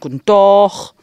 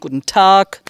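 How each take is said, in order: First: The greeting is said with drawn-out vowels. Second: The greeting is said short and clipped. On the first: This is how the people on the other side say it. "die sagen guten Tag. Die tun das immer wegen länger ziehen" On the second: This is how the speaker's own village says it. "Wir sagen guten Tag"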